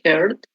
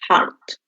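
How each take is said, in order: First: The vowel is not an open 'ah' sound. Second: The vowel is an open 'ah' sound. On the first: The speaker calls it wrong. "don't say heart" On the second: The speaker calls it right. "you say ah"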